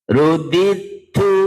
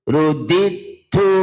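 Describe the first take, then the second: The two takes are said the same way.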